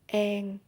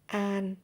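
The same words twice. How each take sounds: First: It is said in a Southern Vietnamese accent. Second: It is said in a Northern Vietnamese accent. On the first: "in Southern accent it will be an" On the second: "it is Northern accent"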